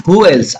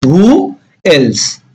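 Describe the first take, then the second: First: Said in the usual way. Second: Long gap between Who and else; spaced-out teaching delivery; word by word. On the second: Shown as a demonstration. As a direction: present each word separately. Teacher models new phrase slowly.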